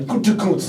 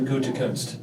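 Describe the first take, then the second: First: The name is said in an exaggerated, overdone way. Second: The name is said in a subdued, restrained way. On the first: "he was like Gutekunst like that when he said it" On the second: "I toned it down from the way Pat McAfee said it"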